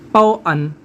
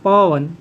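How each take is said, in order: First: The two parts are said apart as separate syllables. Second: The two parts are blended into one word. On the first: The speaker calls it wrong. "ये नहीं लग रहा।" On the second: The speaker calls it right. "साथ में पढ़ना है"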